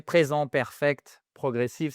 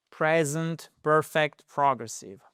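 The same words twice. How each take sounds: First: French sounds, "perfect" with a French R; French pronunciation. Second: Said in the usual way. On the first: Shown as a demonstration. Teacher redoes the English term in French, French pronunciation. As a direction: say the grammar term as French words. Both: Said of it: "je vais vous le faire en français".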